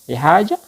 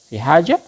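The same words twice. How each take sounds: Both takes have the same delivery.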